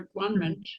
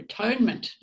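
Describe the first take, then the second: First: The middle part sounds like the word 'one'. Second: The middle part sounds like the word 'tone'. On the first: "There's another way to pronounce that too" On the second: "At one-ment and atonement"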